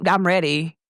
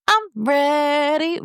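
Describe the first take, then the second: First: Said in the usual way. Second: High, stretched-out "I'm ready"; playful drawl. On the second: Acted. Telling listeners she is ready, playfully high and drawn out. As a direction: draw out "ready" high, rising at the end. Playful take, then plain repeat.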